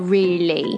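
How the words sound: It ends in an ay-like sound, British.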